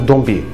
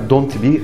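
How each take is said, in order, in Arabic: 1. حرف الـt في آخر don't صامت. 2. حرف الـt في آخر don't بيتنطق. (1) "اسمها" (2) "ما تقولش مثلا"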